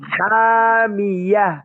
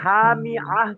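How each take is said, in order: First: The word ends 'mi-yah' with a 'y' sound. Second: The word ends 'mi-ah' with no 'y' sound. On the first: The speaker calls it right. "ইয়া হা জবর ইয়াহ" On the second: The speaker calls it wrong. "ভাই হা মি আহ কেন?"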